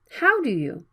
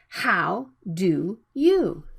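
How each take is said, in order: First: The words are short, relaxed, with a flapped D. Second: The words are full and carefully separated. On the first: The speaker calls it right. "speak them in a short and relaxed sound, like" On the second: The speaker calls it wrong.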